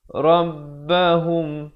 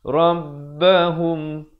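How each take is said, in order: No difference in how they are said.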